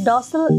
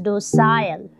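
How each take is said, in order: First: The word is said in an American accent. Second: The word is said in a British accent. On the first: "docile is an American pronunciation" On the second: "in British you will pronounce the same word as docile"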